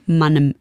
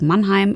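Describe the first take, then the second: First: It is said in local dialect, as Mannem. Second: It is said in standard German, as Mannheim.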